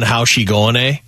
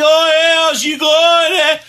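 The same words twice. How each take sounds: First: Put-on mild Canadian accent. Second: Mock a North Bay girl in a broad Canadian accent; exaggerated Canadian accent. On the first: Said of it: "the funny Canadian accent". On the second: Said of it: "she's like".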